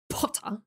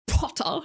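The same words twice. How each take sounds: First: It is said in a crisper, less airy Draco Malfoy voice. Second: It is said in a very airy voice.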